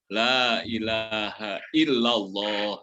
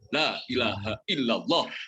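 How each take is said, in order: First: The vowel in Allah is drawn out long. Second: The vowel in Allah is held short. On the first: The speaker calls it right. "kata Allah itu kan harusnya panjang" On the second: The speaker calls it wrong. "ada pengucapannya yang kalau menurut saya kurang tepat"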